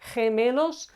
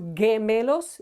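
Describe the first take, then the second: First: The word starts with an H-like sound. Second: The word starts with a hard G sound. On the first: The speaker calls it right. "pronounced as H or the English H" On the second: The speaker calls it wrong. "It's not gemelos"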